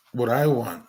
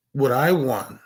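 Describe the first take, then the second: No difference in how they are said.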